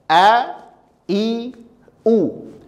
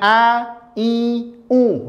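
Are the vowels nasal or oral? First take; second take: oral; nasal. First: The vowels come from the throat, not nasal. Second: The vowels are pushed through the nose. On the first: The speaker calls it right. "Yang pertama dia dari dalam" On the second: The speaker calls it wrong. "jangan dimasukkan ke hidung. Jangan A, I, U. Tidak boleh"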